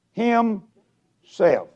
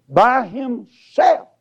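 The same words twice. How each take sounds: First: Said in the usual way. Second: "by himself" said slowly, "by" raised high; slow, weighty "by himself"; stress on by himself. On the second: Shown as a demonstration. Preacher repeats the verse for his flock, slow and stressed. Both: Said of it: "that's it".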